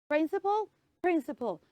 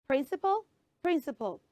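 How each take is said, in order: No difference in how they are said.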